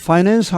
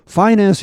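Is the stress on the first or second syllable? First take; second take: second; first. First: The stress is on the second syllable. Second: The stress is on the first syllable. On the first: "가장 전통적인 발음입니다" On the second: "아예 강세를 이름절로 옮겨서"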